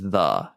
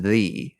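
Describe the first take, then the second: First: The vowel is short and reduced, like 'thuh'. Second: The vowel is long and full, like 'thee'. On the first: "T H E is the" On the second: "T H E E is the"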